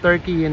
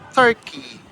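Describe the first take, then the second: First: The name is said the local Turkish way. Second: The name is said the English way. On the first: This is the name the country now uses for itself. "Iba na yata yung pronunciation nila sa pangalan nila" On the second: This is the name familiar back home. "kilala pa rin natin siya na Turkey"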